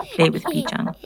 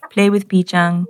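First: "Pichang" sung out with a high, rising lift; high rise on Pichang. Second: Said in the usual way. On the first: A narrator's reading. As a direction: end the list lifting "Pichang" up high. Routine list, playful repeat.

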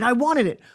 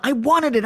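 First: Wanted leaned on hard, falling; driven, grasping repeat; hungry insistence. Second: Aggressive. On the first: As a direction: press down on wanted. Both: Shown as a demonstration. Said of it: "can you hear the aggression in my voice".

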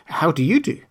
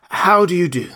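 First: Put-on polite girl's higher voice, rising at the end. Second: Scarecrow's loud, high greeting, falling at the end. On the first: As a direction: return the greeting courteously, lifting the last word. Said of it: "replied Dorothy politely". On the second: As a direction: greet heartily, pitch starting high and dropping. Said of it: "answered the scarecrow". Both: A narrator's reading.

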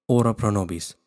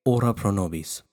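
No difference in how they are said.

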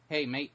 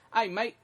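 First: Said in the usual way. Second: High, louder Aussie greeting; put-on Australian call, pitched up; Australian accent. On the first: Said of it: "they would say". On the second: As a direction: imitate an Australian's "mate". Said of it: "Australians always go".

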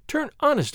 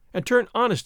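First: "honest" pitched high, then falling; insistent plea. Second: "turn honest" moderately raised, falling at the end; mild plea. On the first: Señorita insists to the outlaw she loves, insistent plea. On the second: Señorita asks the outlaw for her sake, mild plea. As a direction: ask "turn honest" with a modest lift. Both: A narrator's reading.

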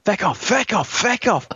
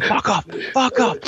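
First: High-pitched mock yell, FECK in place of the swear; aggressive mock shout, censored. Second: Aggressive mock shout. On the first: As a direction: re-enact the yelling with a softened "feck", pitched up. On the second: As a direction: re-enact shouting off a dog, pitched up. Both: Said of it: "I was shouting at it very aggressively".

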